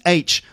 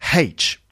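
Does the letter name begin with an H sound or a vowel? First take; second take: vowel; H sound. First: The letter name begins with a vowel sound. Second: The letter name begins with an H sound. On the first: The speaker calls it right. "pronounced without an H in it. So it's H" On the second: The speaker calls it wrong. "not H"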